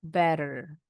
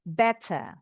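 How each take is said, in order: First: The middle consonant sounds like a quick D. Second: The middle consonant sounds like a clear T. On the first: "bunyi T-nya seperti D cepat" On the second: "bunyi T-nya kedengeran"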